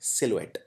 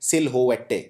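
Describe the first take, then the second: First: It is said smoothly without the extra letters. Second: It is read out sounding every written letter. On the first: The speaker calls it right. "लेकिन इसको बोलते हैं सिलुएट" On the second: The speaker calls it wrong. "अगर आप पहली बार इस शब्द को देख रहे हैं तो आप इसे कुछ ऐसे प्रोनाउंस करेंगे"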